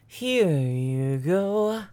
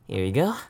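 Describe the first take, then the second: First: It is said with lively enthusiasm. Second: It is said flatly, without enthusiasm.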